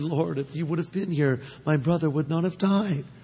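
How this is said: The line is spoken in a soft, tender tone. She speaks gently out of grief. "Did she say it tenderly"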